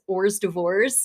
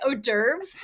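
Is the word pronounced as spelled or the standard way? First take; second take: as spelled; standard. First: It is pronounced as the letters are spelled. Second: It is pronounced the standard, accepted way. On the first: The speaker calls it wrong. "I say it in my head as" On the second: The speaker calls it right. "which is actually"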